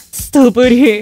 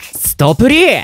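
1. 泣いている声です。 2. 元気な声です。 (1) "泣きながら。" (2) "元気よく。"

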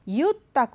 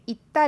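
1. शब्द 'yu' ध्वनि से शुरू होता है। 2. शब्द सादी 'ee' ध्वनि से शुरू होता है। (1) "इसको जैसे बोला जाता है वो है युत्ता" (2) "यहाँ पे इत्ता लिखा है"

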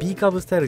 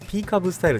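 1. 最初の単語は有声のB音で始まります。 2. 最初の単語は無声のP音で始まります。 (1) "B カブスタイルじゃなく" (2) "P カブスタイルでした"

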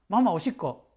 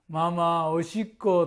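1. 速く話されている。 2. 普通の速さで話されている。

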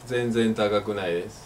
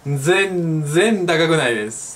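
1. La frase se dice con entonación plana. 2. La frase se dice con entonación variada. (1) "no se dice" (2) "hay que entonarlo un poquito"

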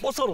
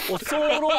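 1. 最後の母音は短く言う。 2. 最後の母音を伸ばす。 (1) "おそろうじゃなくて" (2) "おそろうって伸ばさないの"

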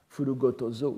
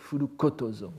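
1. La consonne avant 'oto' est sonore, un 'g'. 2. La consonne avant 'oto' est sourde, un 'k'.

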